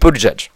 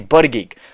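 First: The name sounds like boot-edge-edge. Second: The name sounds like buddy-geek. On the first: The speaker calls it right. "I pronounce his name correctly" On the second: The speaker calls it wrong. "or pronounce his name wrong"

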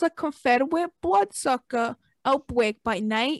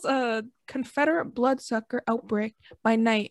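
First: It is read in an odd, put-on voice. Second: It is read in an ordinary, natural voice. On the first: The speaker calls it wrong. "I don't know what the fuck that was" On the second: The speaker calls it right. "Let me say that in a normal voice"

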